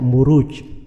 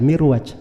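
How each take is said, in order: First: It is pronounced Muruj, with u vowels throughout. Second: It is pronounced Mirwaj, with an i vowel first. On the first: The speaker calls it right. "tapi dibaca Muruj" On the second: The speaker calls it wrong.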